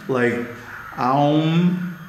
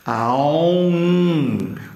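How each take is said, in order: First: The word ends quickly without a drawn-out nasal hum. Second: The word ends with a long, drawn-out nasal hum. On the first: The speaker calls it wrong. "some people like to do it plain" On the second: The speaker calls it right. "with a long tail at the end"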